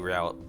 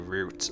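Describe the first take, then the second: First: It rhymes with 'out'. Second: It rhymes with 'boot'. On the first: "I always say route" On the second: "I almost never say route"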